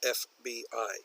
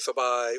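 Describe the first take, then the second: First: Each letter is said separately. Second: It is said as a single word. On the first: The speaker calls it right. "we pronounce each letter individually" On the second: The speaker calls it wrong. "we don't say"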